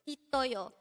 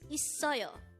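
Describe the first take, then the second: First: The middle consonant is a T sound. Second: The middle consonant is an S sound. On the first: The speaker calls it wrong. "it's not itoyo" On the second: The speaker calls it right. "the sangsiyot part has the S sound"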